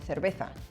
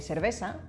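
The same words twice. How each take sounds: First: The c and z sound like th. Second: The c and z sound like s. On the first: This is how it is said in Spain. "they say cerveza" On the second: This is not how it is said in Spain. "they don't say cerveza"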